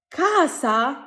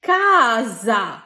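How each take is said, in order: First: কাসা said with a sharp s, rising; কাসা with a hard s, like a question; কাসা as the wrong take, hissed s; wrong plain s sound. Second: কাজা with the s voiced as z, very slow; কাজা drawn out slowly, falling, voiced z; soft z sound. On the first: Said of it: "হয়নি তো". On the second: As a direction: stretch out কাজা, buzzing z in the middle. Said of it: "এটা সঠিক উচ্চারণ কি হবে?". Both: Shown as a demonstration.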